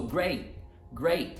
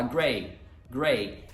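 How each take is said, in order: First: "great" cut short, breath stopped instead of the T; short "great" with no T burst; glottal stop ending. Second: "gray" with an open, lengthened vowel and no catch; open-ended "gray", breath not cut; T simply dropped. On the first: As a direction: chop the vowel of "great" with a catch in the throat. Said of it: "dar uma pausa e cortar". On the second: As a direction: let "gray" fall away freely. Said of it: "se você só tirar o T". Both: Shown as a demonstration.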